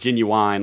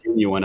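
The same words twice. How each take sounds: First: The word has a Southern-style pronunciation. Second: The word has the standard pronunciation. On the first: The speaker calls it wrong. "like the rapper. That's how a lot of Southerners say it" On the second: The speaker calls it right. "But it's pronounced genuine, apparently"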